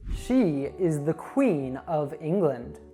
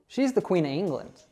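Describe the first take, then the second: First: 'She is' is said as two full words. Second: 'She is' is contracted to 'she's'.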